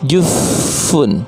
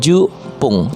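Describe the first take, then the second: First: The middle consonant is an f sound. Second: The middle consonant is a short single p. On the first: "bukannya jufun" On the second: "atau bukan jupung"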